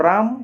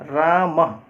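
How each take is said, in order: First: राम with the weight on the long रा, म left light; stress on र. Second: रामः with the final visarga ह sound pushed out, म also firm; stress on the visarga. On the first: Teacher contrasting Hindi राम for students, stress on र. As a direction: lean on रा in राम and let म fall away. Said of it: "राम, हम र पर दे दिए बल". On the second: Teacher demonstrating Sanskrit stress to students, visarga stressed. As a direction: land the weight on the closing ः of रामः. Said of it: "उसके बाद जो विसर्ग है उस पर बल दे रहे हैं". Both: Shown as a demonstration.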